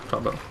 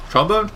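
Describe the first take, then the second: First: Settled, quiet. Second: High rising question; unsure, asking it. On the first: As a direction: mutter the answer, decided. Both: Real, not acted. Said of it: "Maybe not trumpet".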